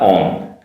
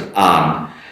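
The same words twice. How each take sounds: First: The word has a British vowel. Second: The word has an American vowel. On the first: "not on" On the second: "As an American, O N, uh, I pronounce as on"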